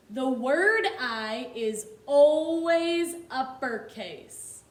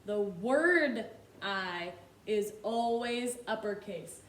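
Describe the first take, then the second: First: "The word I is always uppercase" said slowly with a louder, firm stress on "word"; teacher stressing a rule for the class; emphatic teaching. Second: Said in the usual way. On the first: Shown as a demonstration. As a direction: drive the rule home slowly and firmly.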